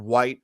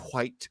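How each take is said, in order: First: Said in the usual way. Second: "white" begun with a breathy h, as "hwite"; aspirated wh. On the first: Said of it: "of course he says it white". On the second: Shown as a demonstration. Quoting the radio announcer, "white" said as "hwite". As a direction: say "white" with an audible h before the w. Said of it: "he says it white".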